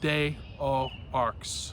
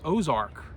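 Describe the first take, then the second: First: It is said as separate spelled-out words. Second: It is blended into one word, 'Ozark'. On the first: The speaker calls it wrong. "bad pronunciation" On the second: The speaker calls it right. "actually is pronounced Ozark in French"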